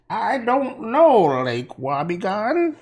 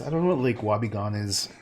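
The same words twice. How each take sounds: First: High, slow drawling Hillary impression; exaggerated Hillary drawl; Hillary Clinton. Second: Said in the usual way. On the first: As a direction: put on a mock Hillary Clinton voice. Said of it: "Oh, I sound like, um, Hillary Clinton". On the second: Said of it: "I sound like".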